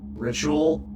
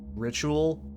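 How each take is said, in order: First: The voice is altered by added audio filters. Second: The voice sounds natural with no effects. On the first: "let's add some fun filters" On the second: "here's me saying ritual normally"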